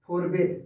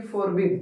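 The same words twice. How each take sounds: First: "forbid" turned into "for-bade", ending like "bed"; past-form pronunciation. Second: "forbid" ending in a short "bid"; base-form pronunciation. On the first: Teacher giving students the second form, "forbid" pronounced "for-bade". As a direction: say "forbid" with a long e in place of the i. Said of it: "F O R B ए D". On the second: Teacher introducing the verb's first form to students, "forbid" said with "bid". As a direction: say "forbid" with an i sound in the last syllable. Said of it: "F O R B आई D". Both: Shown as a demonstration.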